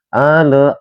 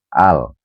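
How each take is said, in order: First: An extra vowel follows the l sound. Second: The word ends in a clear l sound. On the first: The speaker calls it wrong. "ale ya itu salah" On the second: The speaker calls it right. "harus dibaca jelas"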